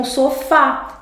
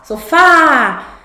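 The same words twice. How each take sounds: First: Said in the usual way. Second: SOFÁ called out with a long, loud FÁ; SOFÁ higher and louder, weight on FÁ; stress on FÁ. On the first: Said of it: "É o que acontece com sofá". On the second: Shown as a demonstration. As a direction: stretch the last syllable, so-FÁÁÁ. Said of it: "última sílaba é mais forte".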